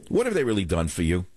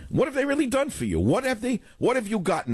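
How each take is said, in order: First: Said in the usual way. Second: Much higher-pitched repeat of the challenge; insistent rhetorical question. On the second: Real, not acted. Host challenging listeners on what the party has done, insistent and high. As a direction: press the question in a high, exasperated voice.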